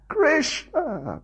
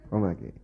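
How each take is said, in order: First: It is cried out desperately for help. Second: It is said calmly, without urgency.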